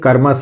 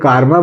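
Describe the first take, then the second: First: The first vowel is short. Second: The first vowel is long. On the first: The speaker calls it right. "कर्मा सही है" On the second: The speaker calls it wrong. "कारमा तो होता नहीं है"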